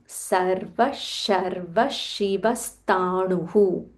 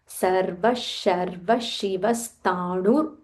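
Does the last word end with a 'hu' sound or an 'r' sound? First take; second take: hu; r. First: The last word ends in hu before a pause. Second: The last word ends in r, running straight on. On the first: The speaker stops after this word. "if you are going to take a pause" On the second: The line continues without a break. "if you are saying this entire line in a single breath"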